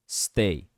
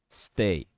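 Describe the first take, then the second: No difference in how they are said.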